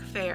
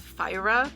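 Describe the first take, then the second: First: The name sounds just like the word fair. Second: The name sounds different from the word fair. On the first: The speaker calls it wrong. "I say Fair in my head" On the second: The speaker calls it right. "that's the technically correct pronunciation"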